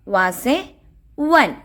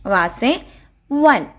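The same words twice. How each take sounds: The two takes are said the same way.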